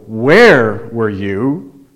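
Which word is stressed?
where. The stress falls on the word where. The question is about the location, not something else. "I didn't ask you how you are, I asked where were you"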